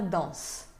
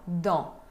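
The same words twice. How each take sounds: First: The final S is pronounced. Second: The final S is silent. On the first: The speaker calls it wrong. "Não pode falar dans" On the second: The speaker calls it right. "não se pronuncia o S final"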